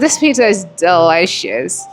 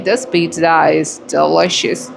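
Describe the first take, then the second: First: It is said with lively, happy emotion. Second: It is said in a sad, low way. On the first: The speaker enjoys the pizza. "I'm using emotional speaking" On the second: The words do not match the inner feeling. "the sad way"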